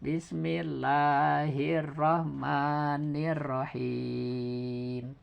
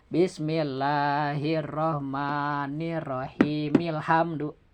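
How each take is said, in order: First: Very slow, soft chant stretching the long vowel; slow Quran recitation with a long final vowel; six beat stop. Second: Slow soft chant run into ilhamdu; slow recitation run on; joined reading. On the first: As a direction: hold the last long vowel for six counts. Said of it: "Jadi enam harkat". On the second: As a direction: join it to ilhamdu with a short vowel. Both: Shown as a demonstration.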